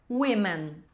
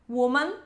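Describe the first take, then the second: First: Women said as "WIM-men"; women, lower, first vowel like I; plural pronunciation. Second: Woman said as "WU-man"; woman, first vowel rounded; singular pronunciation. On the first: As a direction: say women with an I sound in the first syllable. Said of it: "Mais do que uma mulher". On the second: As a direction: say woman with a U sound in the first syllable. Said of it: "uma mulher". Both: Shown as a demonstration.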